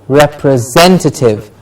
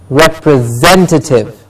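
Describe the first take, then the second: No difference in how they are said.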